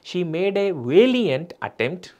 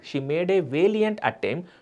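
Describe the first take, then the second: No difference in how they are said.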